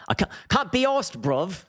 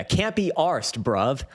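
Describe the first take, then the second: First: Exaggerated chav accent, pitched way up; English chav accent. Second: Mock chav accent, drawn out and higher; English chav accent. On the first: Streamer hamming up English chavs for his viewers, high chav accent. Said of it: "This is the chav speak that I've heard". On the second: Streamer mimicking English chavs for his viewers, chav accent. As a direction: imitate English chav speak, slowly. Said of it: "This is the chav speak".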